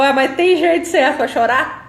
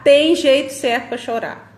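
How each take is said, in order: First: "tem jeito certo pra chorar?" asked with a rising tune, louder; mock-skeptical listener asking if there is a right way to cry; doubtful question. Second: "Tem jeito certo pra chorar." stated with a falling tune, louder; "Tem" stressed and the line falling to a firm close; firm answer. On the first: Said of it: "Aí você falou". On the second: Shown as a demonstration. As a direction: settle it flatly: yes, there is. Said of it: "answers the question".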